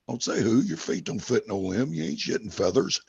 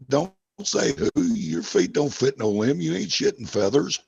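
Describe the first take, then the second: First: It is said at normal speed. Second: It is said more slowly.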